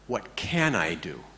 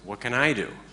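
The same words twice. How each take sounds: First: The word 'can' carries the main stress. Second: The word 'can' carries no main stress. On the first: It asks what is possible for oneself. The speaker calls it right. "The way I want you to read this question" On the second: It asks something else with the same words. The speaker calls it wrong. "As opposed to"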